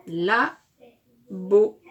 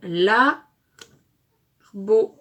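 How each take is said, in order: First: "La", short pause, "beau", two distinct beats; syllables closer together. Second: "la", long pause, "beau", both loud; syllable by syllable. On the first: Teacher repeats the built word, "La" and "beau" more closely spaced. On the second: Teacher assembles syllables for pupils, "la" and "beau" far apart and loud. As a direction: split "la" and "beau" widely into separate blocks. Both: Shown as a demonstration. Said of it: "Et nous avons le".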